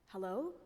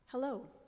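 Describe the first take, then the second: First: It is said as a wondering question. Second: It is said as a plain announcing statement.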